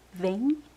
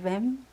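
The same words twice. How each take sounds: First: It ends in a nasal vowel, no m sound. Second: It ends with a clear closing m sound. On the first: The speaker calls it right. "We say vem" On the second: The speaker calls it wrong. "instead of vem"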